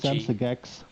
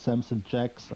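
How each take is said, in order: First: The surname begins with a hard G sound. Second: The surname begins with a J sound. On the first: This is how it would be read in German. "With my German-speaking background, I think over here it would be" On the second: This is how it might be read in English. "but maybe in English it's"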